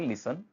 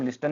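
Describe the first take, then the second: First: No t sound is heard after the s. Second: A t sound is heard after the s. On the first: The speaker calls it right. "हम बोलेंगे लिसन" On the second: The speaker calls it wrong. "हम लिस्टन नहीं बोलेंगे"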